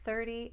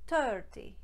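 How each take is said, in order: First: It begins with a soft th sound. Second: It begins with a hard t sound.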